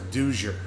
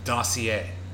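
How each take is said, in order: First: The word is pronounced like dozier. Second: The word is pronounced like dossier. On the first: The speaker calls it wrong. "because I always pronounced it wrong. I thought it was a Dozier" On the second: The speaker calls it right. "But you know what it was?"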